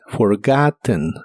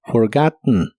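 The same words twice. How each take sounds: First: The last syllable has a soft, short vowel. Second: The last syllable bursts out through the nose. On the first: "La E de esta palabra se pronuncia muy suavemente" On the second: "haciendo una pequeña explosión de aire con la nariz"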